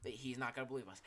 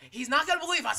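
First: Said in the usual way. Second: High, loud mocking repeat. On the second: Shown as a demonstration. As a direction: shout "He's not gonna believe us" high. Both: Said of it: "repeat mocking".

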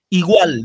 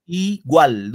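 First: Said in the usual way. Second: Igual partido en dos: I, GUAL; separado en sílabas. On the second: Shown as a demonstration. (igual, marcando sus dos sílabas por separado) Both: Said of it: "dos sílabas".

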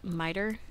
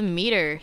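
First: MITER pronounced MY-ter, questioning; miter with long i. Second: METER pronounced MEE-ter; meter with long ee. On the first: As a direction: try "miter" with an eye sound, unsure. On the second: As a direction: say "meter" with an ee in the first syllable. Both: Real, not acted. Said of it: "Is that how it's said?".

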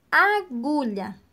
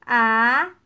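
First: Said in the usual way. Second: "Agulha" in three long syllables with gaps. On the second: Shown as a demonstration. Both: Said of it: "vamos separar as palavras em sílabas".

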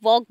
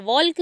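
First: वॉक with no L sound; silent L. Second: वॉल्क with the L sounded out; L pronounced. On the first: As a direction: say वॉक, vowel straight into K. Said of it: "वॉक बोलते हैं". (वॉक, बिना 'ल' बोले) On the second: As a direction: say वॉल्क, wrongly voicing the silent L. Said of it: "वॉल्क नहीं बोलते हम इसे". (वॉल्क, 'ल' की आवाज़ के साथ) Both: Shown as a demonstration.

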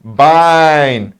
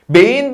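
First: "Bein" as "bine", lower and falling; correct "Bein". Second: "Bein" said high as "bey-in"; wrong "Bein". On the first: Teacher giving students the right "Bein". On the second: Teacher showing class the wrong "Bein". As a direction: pronounce "Bein" as "bey-in", the error. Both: Shown as a demonstration. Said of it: "Bein değil".

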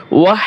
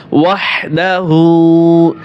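First: ওয়াহ cut short with a rise; ওয়াহ, the mistaken short form; wrong pronunciation. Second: ওয়াহদাহু slow with a firm, throaty হা; the correct ওয়াহদাহু, carefully drawn out; correct pronunciation. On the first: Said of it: "এভাবে পড়া যাবে না". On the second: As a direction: say ওয়াহদাহু slowly, leaning on the হা. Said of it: "এটা হচ্ছে ছোট হা". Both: Shown as a demonstration.

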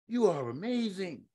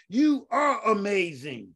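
First: Much softer, intimate echo; soft repeat. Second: Slow, emphatic proclamation; slow emphatic declaration. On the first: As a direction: let it sink in quietly. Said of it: "repeated affirmation, second take". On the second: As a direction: proclaim it slowly to the congregation. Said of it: "repeated affirmation, first take". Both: Real, not acted.

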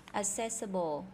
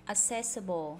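Both takes have the same delivery.

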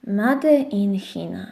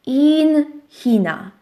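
First: Ciche powtórzenie. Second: Powolne czytanie. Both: Shown as a demonstration. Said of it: "Na papierku było napisane".

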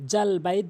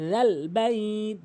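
First: Hard j in জাল বাইত; quick spoken "jal bait"; wrong sound. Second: Slow chant, long বাইত; "dhal baiit", drawn out; correct dhal. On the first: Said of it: "বলা যাবে না". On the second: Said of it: "জিব্বার আগে দাঁতের আগে". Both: Shown as a demonstration.

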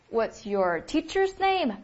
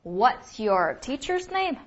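First: Slow, clear repeat of the question. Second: Slow, clear "What's your teacher's name"; slow model question. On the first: Teacher repeats the question slowly for students to copy. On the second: Teacher models the question slowly for students. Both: Shown as a demonstration. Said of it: "应该怎么问".

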